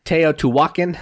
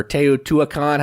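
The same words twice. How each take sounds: First: Teotihuacan as tay-oh-too-WAH-kun; weak, reduced last syllable in Teotihuacan; alternative pronunciation. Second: Teotihuacan as tay-oh-too-uh-KAHN; full "kahn" ending on Teotihuacan; alternative pronunciation. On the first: Host unsure of the game's name, Teotihuacan said tay-oh-too-WAH-kun. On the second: Host offering another try at the name, Teotihuacan said tay-oh-too-uh-KAHN. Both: Shown as a demonstration. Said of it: "however you say it".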